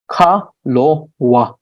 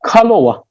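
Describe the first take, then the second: First: "kalowa" slowly split as ka, lo, wa; syllable by syllable. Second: Said in the usual way. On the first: Shown as a demonstration. Teacher breaking a word down for learners, slow separated "kalowa". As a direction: say "kalowa" at half speed, pausing between syllables.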